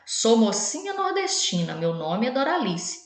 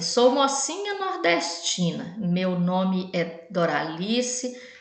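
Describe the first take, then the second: First: It is read with lively, expressive intonation. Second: It is read in a flat, plain tone. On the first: The speaker calls it right. "A leitura de um poema ela tem que ter uma entonação mais adequada. Então, olha" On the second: The speaker calls it wrong. "Eu não leio um poema assim"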